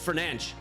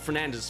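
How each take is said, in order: First: The name ends with a hissing s sound. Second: The name ends with a buzzing z sound. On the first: The speaker calls it right. "that's how you say it" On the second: The speaker calls it wrong. "It's not Fernandez"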